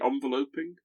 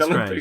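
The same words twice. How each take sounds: First: It is said like the noun envelope plus -ing. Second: It is said like the verb envelop plus -ing. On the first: The speaker calls it wrong. "when you make that into a verb, you don't say enveloping" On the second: The speaker calls it right. "Has to be enveloping"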